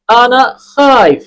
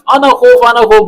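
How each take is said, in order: First: Slow "انا خائف" with a long aa-i in خائف; correct form. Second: "انا خوف" with a quick o vowel in خوف; wrong form. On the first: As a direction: model "انا خائف" higher, drawing out the vowel. ("انا خائف" درست، آہستہ اور کھینچ کر) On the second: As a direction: show the mistaken "انا خوف", higher and brisk. ("انا خوف" غلط، جلدی سے) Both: Shown as a demonstration. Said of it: "یہ نہیں بولنا".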